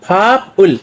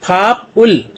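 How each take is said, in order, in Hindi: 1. दोनों हिस्से अलग-अलग बोले जाते हैं, p की आवाज़ के साथ। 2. दोनों हिस्से अलग-अलग बोले जाते हैं, p की आवाज़ के साथ।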